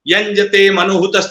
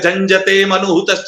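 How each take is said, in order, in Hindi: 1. पहला शब्द y ध्वनि से शुरू होता है। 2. पहला शब्द j ध्वनि से शुरू होता है। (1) "तो य नहीं बोलेगा" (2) "ज बोलेगा"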